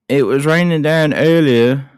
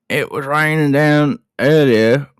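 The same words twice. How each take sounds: First: It is said in a British-sounding accent. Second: It is said in an Australian accent.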